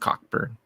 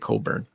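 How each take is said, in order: First: The name is said with a clear k sound. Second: The name is said without any k sound.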